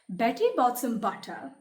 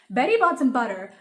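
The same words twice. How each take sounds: First: It is said slowly. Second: It is said very fast.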